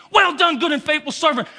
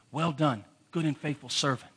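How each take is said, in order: First: Joyful shout. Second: A soft, lifeless "Well done"; flat, dull reading. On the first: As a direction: shout "Well done" loud and high. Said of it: "He's gonna grab you". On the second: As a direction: read it quietly with no feeling at all. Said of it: "I used to say that like this". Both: Shown as a demonstration.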